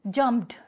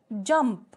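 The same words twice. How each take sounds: First: जंप्ड as one beat, jumpt; silent-e demo. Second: जंप as a single beat, no ed ending; one-syllable demo. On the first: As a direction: end जंप्ड on t with no vowel. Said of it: "ईडी का sound नहीं आ रहा". (जंप्ड को एक ही syllable में बोलें) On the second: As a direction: say जंप alone and distinctly. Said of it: "syllable एक ही रहेगा". (जंप को अकेले एक सिलेबल में बोलें) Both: Shown as a demonstration.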